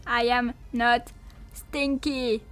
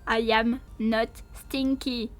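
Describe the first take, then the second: No difference in how they are said.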